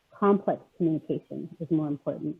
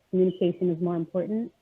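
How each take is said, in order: First: Complex set first and emphasized, the rest even; stress on Complex. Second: Said in the usual way. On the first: Real, not acted. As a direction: lean on the word Complex as the correction. Restates, adding the key word.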